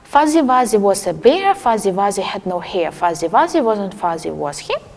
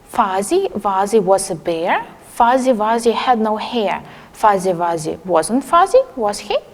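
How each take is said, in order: First: It is said at a quicker pace. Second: It is said at a slower pace.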